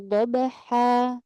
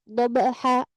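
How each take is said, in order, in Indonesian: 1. Vokal akhir ditahan dengan panjang yang wajar. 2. Vokal akhir dipotong tiba-tiba. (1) "Makanya natural aja" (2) "jangan diberhentikan secara tiba-tiba"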